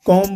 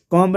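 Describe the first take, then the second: First: "कॉम्ब" ending on M, B silent; silent B in comb. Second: "कॉम्ब" with the final B pronounced; B sounded in comb. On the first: Teacher showing students the correct "कॉम्ब", B left silent. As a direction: say "कॉम्ब" as "kom", dropping the B. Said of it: "सिर्फ". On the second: Teacher showing students the wrong "कॉम्ब", final B sounded. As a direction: say "कॉम्ब" ending on an audible B. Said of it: "कॉम्ब नहीं बोलते हैं". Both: Shown as a demonstration.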